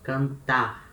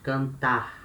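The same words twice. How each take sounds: Both takes have the same delivery.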